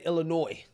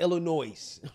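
First: The final s sound is silent. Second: The final s sound is pronounced. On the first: The speaker calls it right. "I said Illinois" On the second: The speaker calls it wrong. "not Illinois"

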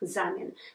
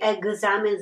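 First: The middle consonants are voiceless, like ks. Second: The middle consonants are voiced, like gz. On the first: "though we spell" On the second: "we say"

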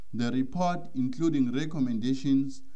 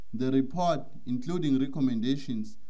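Both takes have the same delivery.

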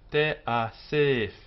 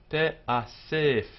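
The two takes are said the same way.

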